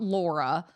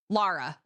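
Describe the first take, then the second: First: The name is said as Laura. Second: The name is said as Lara. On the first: The speaker calls it wrong. "Not Laura" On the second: The speaker calls it right. "Lara Croft"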